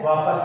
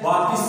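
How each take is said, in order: First: वापस said with a short a, no i; correct pronunciation. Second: वापिस said with a short i, the wrong way; wrong pronunciation. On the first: Teacher gives students the right form, वापस with a. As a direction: say वापस as va-pas. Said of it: "सही शब्द क्या है". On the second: Teacher shows students the wrong form, वापिस with an i. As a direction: say वापिस as the common mistake. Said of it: "ये गलत word है". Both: Shown as a demonstration.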